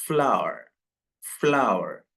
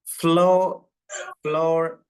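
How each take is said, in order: First: ഫ്ലവർ in two syllables like flower, final r silent; correct pronunciation. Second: ഫ്ലോർ read as floor, one syllable; common mispronunciation. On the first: Teacher modelling the right form for students, ഫ്ലവർ with silent r. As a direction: say ഫ്ലവർ as flau-uh, no r. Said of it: "ഇതെങ്ങനെയാണ് ഉച്ചരിക്കേണ്ടത്?". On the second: Teacher showing how students usually misread it, ഫ്ലോർ as floor. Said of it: "ഫ്ലോർ എന്നല്ല". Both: Shown as a demonstration.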